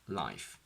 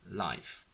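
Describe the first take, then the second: First: It is said with a clear L. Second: The same.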